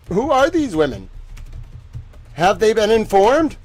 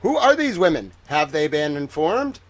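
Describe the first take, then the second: First: Louder, insistent repeat of the questions; demanding repeat. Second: Said in the usual way. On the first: Real, not acted. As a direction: press the question harder.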